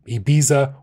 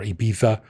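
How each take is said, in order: First: It is said with an English-style pronunciation. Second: It is said with a Spanish-style pronunciation. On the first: The speaker calls it wrong. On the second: The speaker calls it right.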